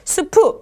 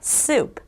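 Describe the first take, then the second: First: The word ends with an added vowel after p. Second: The word ends on the p consonant. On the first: The speaker calls it wrong. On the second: The speaker calls it right.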